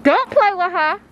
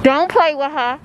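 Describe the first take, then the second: First: High, loud New York accent. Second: Hint of a New York accent. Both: Shown as a demonstration. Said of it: "You heard my New York accent".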